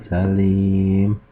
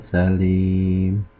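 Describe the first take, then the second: Both takes have the same delivery.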